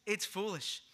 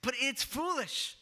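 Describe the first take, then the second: First: Understated dismissive repeat; mild scoff. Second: "foolish" scorned, higher in pitch; scornful jab at the faithful; mocking scoff. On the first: Retold or imitated. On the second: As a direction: sneer it like a sceptic mocking believers. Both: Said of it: "That's how they would say it".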